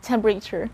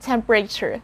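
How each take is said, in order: First: The vowel after the P is dropped. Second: The vowel after the P is dropped.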